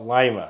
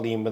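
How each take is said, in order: First: It is said like the word in lima beans. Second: It is said like the capital of Peru. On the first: This is how locals say the town's name. "they call it Lima" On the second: This is the name of the city in Peru. "they don't call it Lima"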